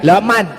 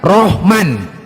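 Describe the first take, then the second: First: It starts with an L and a rounded o vowel. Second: It starts with R and a rounded o vowel. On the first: "ketika dia orangnya celat" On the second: "Kalau orang Jawa mengatakan Rohman"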